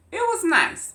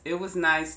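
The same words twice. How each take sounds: First: "it was nice" pitched way up and loud, mock bright; sarcastic "nice". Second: Said in the usual way. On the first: Real, not acted. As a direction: sing out "was" high, then drop it sarcastically. Sarcastic repeat of holiday remark.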